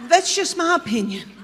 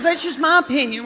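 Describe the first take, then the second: First: Prim little higher voice repeating her line; imitating Gail, higher. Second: Prim repeat of the line, higher; imitating Gail, higher. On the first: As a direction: play the sweet mother-in-law insisting on her opinion. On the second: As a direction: say it again in the mother-in-law's little voice. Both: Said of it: "She goes".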